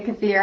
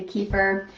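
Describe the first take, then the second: First: Kefir said "kuh-FEER", stress on the second syllable; alternative pronunciation. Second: Kefir said "KEE-fer", stress on the first syllable; own pronunciation. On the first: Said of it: "Some people say kefir". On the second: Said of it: "I say kefir". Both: Shown as a demonstration.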